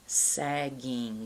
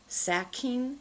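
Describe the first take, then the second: First: "sagging" with a deep voiced g in the middle. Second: "sacking" with a crisp voiceless k, no voicing. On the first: Pronunciation teacher contrasting k and g, deep voiced g. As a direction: say "sagging" letting the g buzz low and voiced. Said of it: "Make that deep sound". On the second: Pronunciation teacher contrasting k and g, crisp voiceless k. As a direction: say "sacking" with a sharp unvoiced k in the middle. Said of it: "That's usually the harder sound". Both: Shown as a demonstration.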